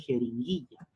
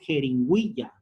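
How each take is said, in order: First: The u after the g is silent. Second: The u after the g is pronounced. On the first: The speaker calls it right. "dice jeringuilla" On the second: The speaker calls it wrong. "Acá no dice jeringuilla"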